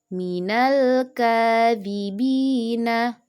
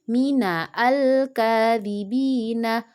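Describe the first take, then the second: First: The 'al' joins straight onto the previous word. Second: A separate 'a' vowel is sounded before the L. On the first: The speaker calls it right. "Alifnya tidak dibaca, langsung ke lam" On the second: The speaker calls it wrong. "bukan dibaca"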